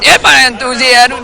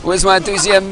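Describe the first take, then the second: First: Higher, louder pumped-up reply; enthusiastic. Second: Said in the usual way. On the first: Shown as a demonstration. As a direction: summon fake hype on cue.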